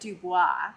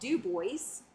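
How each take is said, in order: First: The final s is silent, French style. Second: The final s is clearly pronounced. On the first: This is the French or Louisiana way. "if you are from the Louisiana area or you know French, you will pronounce it Dubois" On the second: This is the local Wyoming way. "complete with the S"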